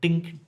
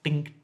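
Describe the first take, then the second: First: The word starts with a d sound. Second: The same.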